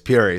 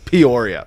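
First: The name is said shortened, with fewer syllables. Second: The name is said in full, every syllable. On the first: It is how everyone else says it. "It's too many syllables" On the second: It is how the proud people from there say it. "The people who went to Peoria are like loud and proud"

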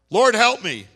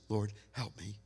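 First: It is said as a loud, piercing cry. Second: It is said softly and weakly.

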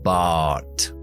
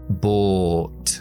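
First: An American accent with less rounded lips on the vowel. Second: A British accent with rounded lips on the vowel.

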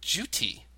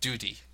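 First: The middle consonant is a clear T sound. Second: The middle consonant is a soft D sound. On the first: The speaker calls it right. "Pronounce that T as T, ... or condensed slightly to duty" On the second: The speaker calls it wrong. "not an American D"

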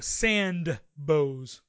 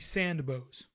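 First: The D is pronounced hard. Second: The D is barely heard.

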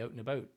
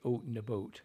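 First: The vowel is raised, with a tighter jaw. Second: The vowel is an exaggerated, rounded 'oot' sound. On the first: This is how the actors actually say it. "You say out and about" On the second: This is the stereotype actors fear, not their real speech. "you don't say out and about"

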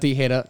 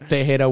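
First: The name is said without the E vowel sound. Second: The name is said with the E vowel sound. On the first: The speaker calls it wrong. "Not Tejera" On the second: The speaker calls it right. "Tejera with an E"

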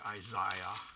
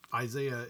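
First: The name is said in a British accent. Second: The name is said in an American accent.

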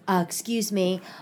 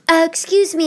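First: It is said in the speaker's own voice. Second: It is said in a put-on imitated voice.

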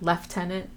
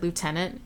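First: The word is said with a British pronunciation. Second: The word is said with an American pronunciation. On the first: The speaker calls it right. "not Lieutenant, as he would if he was British" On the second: The speaker calls it wrong. "he pronounces it Lieutenant"

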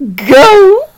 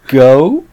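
First: The voice falls at the end, like a command. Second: The voice rises at the end, like a question. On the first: It is an instruction to start. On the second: It is asked as a question.

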